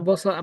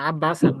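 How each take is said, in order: First: No vowel is heard between b and s. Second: A short vowel is heard between b and s. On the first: The speaker calls it wrong. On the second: The speaker calls it right.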